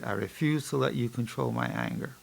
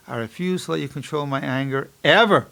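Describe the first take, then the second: First: Focused self-talk. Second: Firm affirmation with "ever" punched at the end; stress on ever. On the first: Psychologist modelling focused listening to his mantra, hushed. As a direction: say it quietly, listening to your own voice. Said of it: "I'm listening to my voice as I say it". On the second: Psychologist adds an expander to his mantra, emphatic "ever". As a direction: land hard on a final "ever". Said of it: "Now I can have an expander". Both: Shown as a demonstration.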